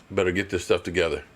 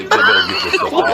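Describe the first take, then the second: First: Said in the usual way. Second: Very high, fast squeak with a laugh; comic falsetto complaint; squeaky joke voice. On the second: Pretend. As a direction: pitch it up like a cartoon. Repeat in squeaky put-on voice.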